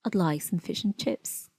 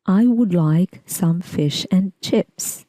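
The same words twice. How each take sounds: First: "some" as "səm" and "and" as "ən", quiet and reduced; relaxed, natural, function words swallowed; weak form. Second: "would" said in full, slow and careful, every word given its strong form; deliberately slow, every function word fully pronounced. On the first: Teacher contrasts the natural weak form, quiet and relaxed. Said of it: "The weak form would be". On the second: Teacher demonstrates the unnatural strong form, slow and careful. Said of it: "Strong form". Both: Shown as a demonstration.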